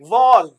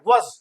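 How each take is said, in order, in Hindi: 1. स्वर पूरा है और साफ़ बोला जाता है। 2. स्वर घटकर हल्का श्वा (weak schwa) हो जाता है। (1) "वॉज strong form" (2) "weak form क्या है"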